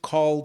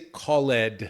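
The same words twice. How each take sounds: First: The ending is a short D sound. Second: The ending is a separate extra syllable. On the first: The speaker calls it right. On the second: The speaker calls it wrong.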